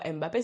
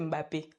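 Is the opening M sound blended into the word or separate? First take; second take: separate; blended. First: The opening M is said as a separate sound. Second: The opening M is blended into the next sound. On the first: This is how the French media say the name. The speaker calls it wrong. "c'est pas Mbappé" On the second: This is how Africans say the name. The speaker calls it right. "c'est Mbappé"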